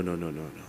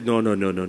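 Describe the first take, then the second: First: Much lower and softer, trailing away; a soft, sinking no; fading refusal. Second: Said in the usual way. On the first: Acted. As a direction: let the refusals die out quietly. Monkey refuses the lion.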